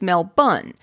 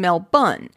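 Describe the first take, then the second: First: It is said with an Australian accent. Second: It is said with an Australian accent.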